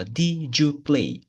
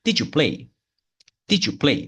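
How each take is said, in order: First: 'Did you play' stretched out very slowly; slow demonstration. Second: 'Did you play' run together briskly as 'didju play'; quicker demonstration. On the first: Teacher modelling the question before speeding up, slow. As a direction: draw out each word of 'Did you play' for learners. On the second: Teacher repeating it só que mais rápido, quicker. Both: Shown as a demonstration. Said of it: "Só que mais rápido".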